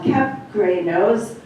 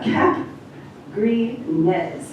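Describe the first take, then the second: First: The name is said with English pronunciation. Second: The name is said with French pronunciation. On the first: "that's the English version of it" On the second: "is the French pronunciation"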